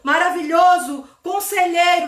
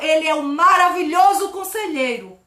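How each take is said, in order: First: There is a pause between the two words. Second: The two words flow together without a pause.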